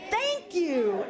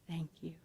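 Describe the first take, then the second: First: It is said loudly. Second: It is said quietly.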